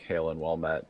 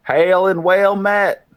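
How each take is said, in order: First: Low, soft repeat of a greeting; quiet, low-pitched hail in character; Draconic greeting. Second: Loud, high, drawn-out hail; long ringing greeting to a far-off stranger; called-out greeting. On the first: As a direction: drop the pitch and volume right down. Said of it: "say it again in Draconic". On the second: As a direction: call slowly across a distance, pitched high. Calling greeting to distant figure. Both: Acted.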